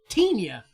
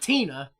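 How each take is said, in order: First: The n is a Spanish-style 'ny' sound. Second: The n is a plain English n. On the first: "the way the Spanish language pronounces it" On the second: "Not Tina"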